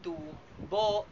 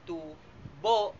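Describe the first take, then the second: First: The stress is on the second syllable. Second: The same.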